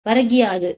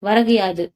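First: One joined word, with a short i sound. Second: Two separate words, the first ending in u.

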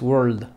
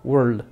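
First: The final D sound is audible. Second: The final D sound is audible.

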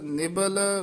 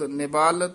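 First: The second syllable has a short vowel. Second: The second syllable has a long vowel. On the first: The speaker calls it right. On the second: The speaker calls it wrong.

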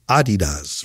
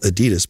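First: The brand name is said the original way. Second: The brand name is said the anglicized way. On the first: This is how the name really is. The speaker calls it right. "but it's Adidas" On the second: This is how the speaker would normally say it. The speaker calls it wrong. "I would call it Adidas"

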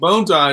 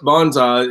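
First: The first syllable sounds like 'bone'. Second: The first syllable does not sound like 'bone'. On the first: "Bonsai is correct. The two words, bone and sai" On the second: "bonsai is common American vernacular"

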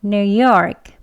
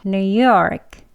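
No difference in how they are said.

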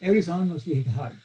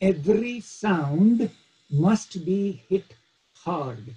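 First: The sounds are slurred and merge together. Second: Every sound is articulated crisply and separately.

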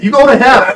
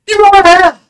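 First: It is said in his normal voice. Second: It is said in a Mister Garrison impression.

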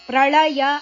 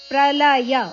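First: The middle l sound is retroflex. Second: The middle l sound is plain. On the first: The speaker calls it wrong. "ಪ್ರಳಯ ಅಲ್ಲ" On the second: The speaker calls it right. "ಅಲ್ಲ ಪ್ರಲಯ"

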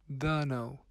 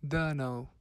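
Both takes have the same delivery.

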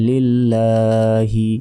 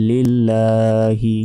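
Both takes have the same delivery.

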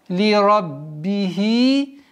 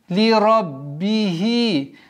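The two takes are said the same way.

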